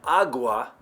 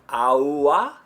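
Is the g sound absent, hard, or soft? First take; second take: hard; absent. First: The g is a full, hard sound. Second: There is no g sound at all. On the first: "You've been saying it incorrectly" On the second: "That would be without the G at all"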